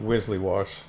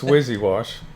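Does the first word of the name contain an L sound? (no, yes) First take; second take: yes; no. First: The first word has an L sound before its ending. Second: The first word has no L sound before its ending. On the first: The speaker calls it wrong. "I mispronounced it for a year. I called it Wizzly Wash" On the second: The speaker calls it right. "but it's Wizzy Wash"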